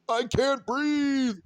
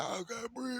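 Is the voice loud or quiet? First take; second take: loud; quiet. First: It is screamed loudly at full force. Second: It is said quietly and weakly, gasping. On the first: The person can actually breathe. "you're screaming at the top of your lungs" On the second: The person truly cannot breathe. "That's what it sounds like when you can't breathe"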